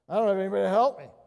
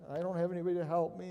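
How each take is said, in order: First: It is said in a frustrated, exasperated tone. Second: It is said in a pitiful, whining tone.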